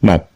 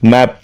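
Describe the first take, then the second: First: The final p is swallowed and barely heard. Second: The final p is released strongly and clearly. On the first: "முழுங்கின மாதிரி இருக்கும்" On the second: "native speakers மேப் ஸ்ட்ராங்காக சொல்லுவாங்க"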